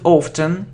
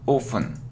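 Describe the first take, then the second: First: The word is said with a T sound. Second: The word is said without a T sound. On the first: The speaker calls it wrong. "It isn't often" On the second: The speaker calls it right. "we normally pronounce it without t"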